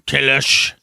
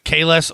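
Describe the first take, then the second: First: The name ends with an sh sound. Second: The name ends with a plain s sound.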